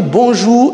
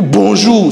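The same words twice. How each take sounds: First: High "Bonjour" lifting at the end; rising intonation. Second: "Bonjour" with a firm falling end; falling intonation. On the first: Teacher showing greetings differ, rising "Bonjour". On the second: Teacher showing greetings differ, falling "Bonjour". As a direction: drop the end of Bonjour firmly. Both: Shown as a demonstration. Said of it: "c'est pas pareil".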